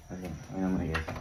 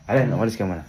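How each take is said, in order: First: Hushed whisper, barely voiced; whispering while hiding. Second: Said in the usual way. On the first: Real, not acted. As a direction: drop to a secret whisper. Repeats it hushed.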